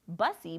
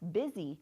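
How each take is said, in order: First: The first vowel sounds like the 'u' in 'bus'. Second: The first vowel sounds like the 'i' in 'bit'. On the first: The speaker calls it wrong. "If we were to sound it out, it looks like bussy" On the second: The speaker calls it right. "the actual pronunciation is busy"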